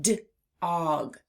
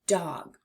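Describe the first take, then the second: First: D-og split after the D; segmented first sound. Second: Said in the usual way. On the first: Shown as a demonstration. Teacher lets children hear the first sound, segmented. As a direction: detach D, then say og. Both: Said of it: "I heard it".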